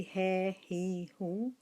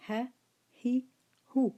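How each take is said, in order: First: Ha he hu with long stretched vowels, the wrong way; drawn-out vowels. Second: Ha he hu said short, he higher and louder; short vowels. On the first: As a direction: show the long vowel mistake. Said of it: "It become mad". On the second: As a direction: model short ha, he, hu. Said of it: "We say". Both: Shown as a demonstration.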